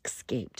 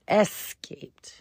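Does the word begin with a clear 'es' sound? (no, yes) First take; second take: no; yes. First: The word does not begin with an 'es' sound. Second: The word begins with a clear 'es' sound. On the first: The speaker calls it wrong. "she's one of the ones that says escaped" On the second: The speaker calls it right. "Like the letter S. And then the rest of the word"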